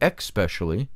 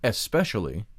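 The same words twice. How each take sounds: First: The word starts with an 'ex' sound. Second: The word starts with an 'es' sound. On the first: The speaker calls it wrong. "we have changed it to especially, who added the X?" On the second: The speaker calls it right. "If spiritual belief was especially"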